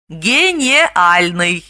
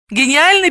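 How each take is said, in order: First: "Гениальный" very slow, with е for и; "Гениальный" syllable by syllable, ge-ne-AL-ny; misprint read as spelt. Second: Said in the usual way. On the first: Shown as a demonstration. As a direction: sound out "Гениальный" as "ге-не-альный". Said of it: "а здесь «е»". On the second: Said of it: "пишется через «и»".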